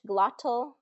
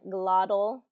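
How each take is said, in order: First: The T is pronounced as a clear T. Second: The T is pronounced like a soft D. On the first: "Standard British" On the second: "Standard American"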